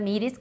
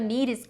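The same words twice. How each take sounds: First: The t is pronounced crisply and strongly. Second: The t is softened into a quick flap. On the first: The speaker calls it wrong. "T 사운드를 강하게 살리시면" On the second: The speaker calls it right. "약간 리을처럼 굴려서"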